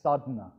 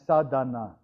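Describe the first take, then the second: First: The middle vowel is swallowed. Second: The middle vowel is pronounced fully. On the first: "The A is sort of swallowed up" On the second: "the word is actually written as sadhana"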